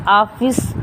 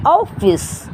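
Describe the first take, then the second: First: "ऑफिस" said aa-fis, with open aa; plain aa vowel. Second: "ऑफिस" said aw-fis, vowel between aa and o; English o vowel. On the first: Teacher contrasting two vowels for students, "ऑफिस" as aa-fis. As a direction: say "ऑफिस" with an unrounded aa at the start. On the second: Teacher showing the borrowed English sound, "ऑफिस" as aw-fis. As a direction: say "ऑफिस" with a rounded, higher first vowel. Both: Shown as a demonstration. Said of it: "आ और ओ के बीच की sound".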